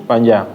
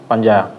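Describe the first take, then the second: No difference in how they are said.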